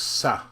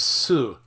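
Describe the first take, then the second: First: The vowel sounds like ah. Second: The vowel sounds like oo. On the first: The speaker calls it wrong. "a lot of English speakers might want to pronounce this sa" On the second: The speaker calls it right. "this word S U is su"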